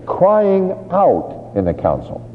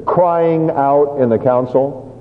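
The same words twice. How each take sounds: First: "crying" called out high and drawn out slowly; loud crying out. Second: 慢慢地强调crying; slow, stressed. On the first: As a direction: cry it out like to a crowd. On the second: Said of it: "just little words here". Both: Shown as a demonstration.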